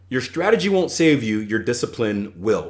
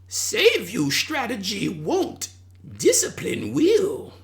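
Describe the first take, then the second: First: It is said in the speaker's normal voice. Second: It is said in an imitated Yoda voice.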